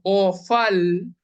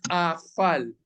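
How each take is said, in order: First: The first vowel is pronounced as o. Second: The first vowel is pronounced as a. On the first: The speaker calls it right. "nosotros decimos ofal" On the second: The speaker calls it wrong. "no decimos afal"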